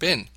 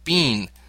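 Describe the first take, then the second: First: The vowel is short, rhyming with 'tin'. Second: The vowel is long, rhyming with 'seen'. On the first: This is the American way of saying it. "in an American accent, this is often pronounced bin" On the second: This is one English way of saying it. "In an English accent, this may be pronounced as bean"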